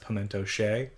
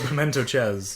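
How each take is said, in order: First: The last word is said like 'shay'. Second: The last word is said like 'chess'. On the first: The speaker calls it right. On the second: The speaker calls it wrong.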